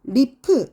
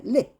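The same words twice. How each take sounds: First: The final p is released strongly. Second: The final p is said weakly. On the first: The speaker calls it wrong. "이게 아니라" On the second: The speaker calls it right. "끝에 올 때는 약하게만 하면 돼요"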